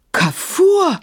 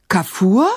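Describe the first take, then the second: First: Very high exclamation, falling at the end; amazed high call on a drawn second syllable; astonished cry. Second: Short question rising at the end; startled, questioning echo of a name; questioning surprise. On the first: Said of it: "rief Maimun und riss die Augen". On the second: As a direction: ask the name in disbelief, lifting the last syllable. Caliph reacts to unexpected news. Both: A narrator's reading.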